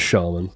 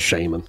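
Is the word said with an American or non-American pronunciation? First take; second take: non-American; American. First: The word has a non-American pronunciation. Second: The word has an American pronunciation. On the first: "It is Shaman" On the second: "Americans say Shaman"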